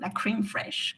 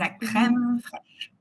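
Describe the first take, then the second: First: It is said with an English accent. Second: It is said with a French accent. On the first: The speaker calls it wrong. "tu l'as prononcé à l'anglaise" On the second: The speaker calls it right. "C'est la crème fraîche"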